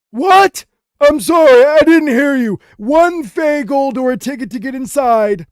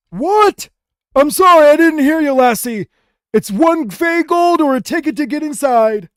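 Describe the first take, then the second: First: High, loud goblin voice, slowing at the end; an old goblin straining to hear; deaf old goblin. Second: High, loud goblin voice; an old goblin who can't hear a thing; deaf old goblin. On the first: An old goblin at the gate, still deaf, high and loud. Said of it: "he turns to you and he says". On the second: An old goblin who can't hear the guard, high and loud. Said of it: "and then he says". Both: Acted.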